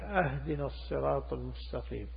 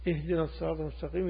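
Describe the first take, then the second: First: The first word begins with an 'ah' sound. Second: The first word begins with an 'ih' sound. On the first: It asks to be given a gift. The speaker calls it wrong. "هذا خطأ يحيل المعنى" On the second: It asks to be guided. The speaker calls it right. "لكن لو قلت لهذا الإمام اهدنا"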